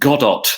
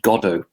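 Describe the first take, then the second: First: The final T is clearly sounded. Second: The final T is silent. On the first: "Then it's Godot" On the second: "It's pronounced Godot"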